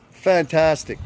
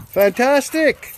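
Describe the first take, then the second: First: Said in the usual way. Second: Fantastic drawn out slowly, pitched much higher; enthusiastic praise. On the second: Real, not acted. Host praising a returning rally supporter, drawn-out and high. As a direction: stretch out Fantastic high and slow, gushing.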